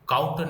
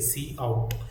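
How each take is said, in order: First: It is said as one syllable, 'kout'. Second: It is said as two parts, 'see out'. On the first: The speaker calls it wrong. "ये काउट नहीं है" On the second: The speaker calls it right. "इसका pronunciation होता है सी ओ U T आउट"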